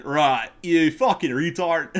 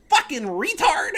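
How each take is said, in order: First: High-pitched mock Australian accent, slow and laughing. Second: High, slow, loud mock of the rival; mocking quote. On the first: Redoing the insult in a mock Australian accent. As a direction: lay on a silly Australian accent. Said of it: "Or in Australian". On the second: Quoting the salty opponent's chat, high mocking voice. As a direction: ham up the opponent's insult. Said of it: "He goes".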